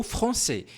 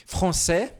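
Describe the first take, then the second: First: "français" ending in a closed "é"; closed vowel. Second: "français" ending in an open "è"; more open vowel. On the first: Teacher giving the other regional variant, "français" with closed final "é". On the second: Teacher showing a regional variant, "français" with open final "è". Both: Shown as a demonstration. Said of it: "Você pode falar um pouco mais aberto".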